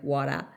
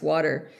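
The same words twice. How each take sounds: First: Water said softer and lower, with the R dropped; the host shows her own funny water, no R. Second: Said in the usual way. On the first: Shown as a demonstration. Drop the R in water. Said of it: "pronounce water comes out very funny". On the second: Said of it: "about how to pronounce".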